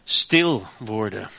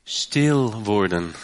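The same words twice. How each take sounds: First: Stil worden drawn out slowly; slow emphasis. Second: Stil worden said very slowly, low; slow right down on Stil worden; slow repeat. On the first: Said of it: "Ik moet". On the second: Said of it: "Daar hebben we Nederlanders een beetje moeite mee". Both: Shown as a demonstration.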